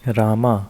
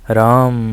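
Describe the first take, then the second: First: The word ends with a long 'aa' vowel. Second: The word ends on the final consonant sound. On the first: The speaker calls it wrong. "जो लोग बोल देते हैं" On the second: The speaker calls it right. "आखिरी में झंकार भी देनी है"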